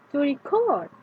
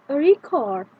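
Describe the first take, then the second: First: "to record" with stress on "cord"; second-syllable stress. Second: "A record" with "rec" punched louder; first-syllable stress. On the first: Teacher showing the verb, "to record" stressed on "cord". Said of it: "the stress is on the second syllable". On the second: Teacher showing the noun, "A record" stressed on "rec". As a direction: hit "rec" in "A record", drop on "ord". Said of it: "If the stress is on first syllable". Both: Shown as a demonstration.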